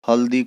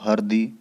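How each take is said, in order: First: The middle consonant is an l sound. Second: The middle consonant is an r sound. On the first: This is the standard Hindi form. "ल र में ... बदल जाएगा" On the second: This is the Nagpuri form. "ल र में ... बदल जाएगा"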